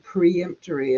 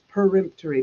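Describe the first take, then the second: First: The word begins with the sound 'pre'. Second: The word begins with the sound 'per'. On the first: The speaker calls it wrong. "everybody keeps saying preemptory" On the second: The speaker calls it right. "It's peremptory"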